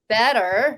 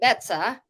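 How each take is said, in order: First: The middle T is softened, almost like a D. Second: The middle T is pronounced as a crisp T. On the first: This is the usual way back home. "instead of better" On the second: This is adapted so locals can understand. "I had to pronounce the letter T"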